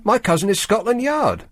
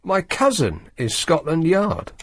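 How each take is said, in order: First: Quoted as scream. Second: Slow, disbelieving repeat; incredulous. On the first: Retold or imitated. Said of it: "Campbell screamed". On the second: Real, not acted. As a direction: echo it back in disbelief.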